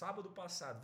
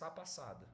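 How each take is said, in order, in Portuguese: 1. A palavra sábado é falada por inteiro. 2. A palavra sábado é cortada para sá.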